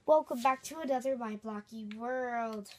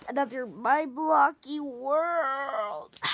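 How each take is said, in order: First: Said in the usual way. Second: Drawn-out intro voice. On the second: Acted. Slow drawn-out channel intro.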